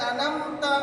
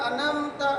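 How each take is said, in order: No difference in how they are said.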